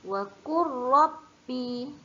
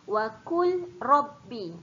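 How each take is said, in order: First: The l sound merges fully into the r. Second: The l sound is pronounced clearly before the r. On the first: The speaker calls it right. "jangan disebutkan lam. Terus masukkan kepada ra" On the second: The speaker calls it wrong.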